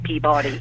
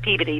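First: The name is said in the outsider way. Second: The name is said in the local way. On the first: This is how non-residents say the name. "when people say it correctly, they say Peabody" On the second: This is how residents say the name. "we say it Peabody"

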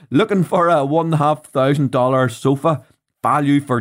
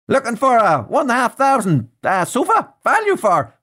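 First: It is spoken in the speaker's natural accent. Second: It is spoken in an attempted American accent. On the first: "So I'm just gonna say it" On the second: "I'm going to try and do an American voice here"

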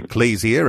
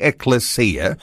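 First: It is pronounced in a more anglicized way. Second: It is pronounced closer to the Greek way. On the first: "I was saying ecclesia" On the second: "the closer one to the Greek pronunciation"

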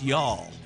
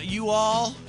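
First: It is squeezed into one short syllable. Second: It is said as two separate full words. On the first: The speaker calls it right. "It's y'all, right? That's how you say it" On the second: The speaker calls it wrong. "No, that's not how you say it"

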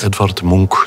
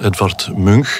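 First: Munch is pronounced with the Norwegian reading. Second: Munch is pronounced with a Dutch reading. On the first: The speaker calls it right. "zo moeten we het uitspreken" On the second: The speaker calls it wrong. "ik dacht dat ik naar het museum van Edvard Munch stapte"

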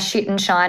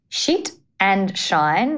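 First: The phrase is said fast, run together as one word. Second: The phrase is said slowly, with the words kept apart. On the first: "because I just said that in one word" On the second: "let me just say that a little bit slower"

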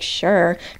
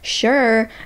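First: It sounds annoyed, with an eye-roll attitude. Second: It sounds cheerful and positive, like a smile.

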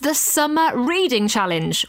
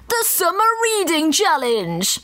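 First: It is said in the speaker's normal voice. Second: It is said in a put-on announcer-style voice.

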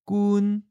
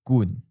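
First: The syllable is said in the first tone. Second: The syllable is said in the third tone. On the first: "First tone" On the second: "That's third tone"

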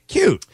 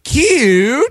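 First: The word is said short and quick. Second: The word is stretched out long. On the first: The friend actually looks bad in it. "just say cute" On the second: The friend really looks good in it. "you have to carry out the cute"

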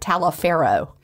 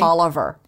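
First: The name is said the way it is spelled. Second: The name is said the local way. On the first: The speaker calls it wrong. "but it looks like Taliaferro" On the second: The speaker calls it right. "But you say Tolliver"

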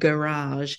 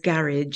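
First: The word is said with an American pronunciation. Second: The word is said with a Yorkshire pronunciation. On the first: This is the way the newcomer used to say it. "instead of garage" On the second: This is the local way the speaker's group says it. "he now says garage"

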